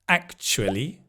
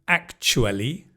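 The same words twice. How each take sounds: No difference in how they are said.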